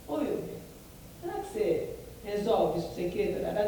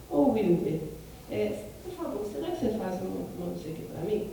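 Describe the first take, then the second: First: Mildly haughty, demanding tone; arrogant request. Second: Gently polite, a touch softer; polite request. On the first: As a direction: talk down to the coworker a little. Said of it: "essa pessoa é arrogante". (pedido levemente arrogante) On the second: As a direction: ask a coworker nicely, as a favour. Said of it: "Eu tô falando assim com ele". (pedido gentil e educado) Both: Shown as a demonstration.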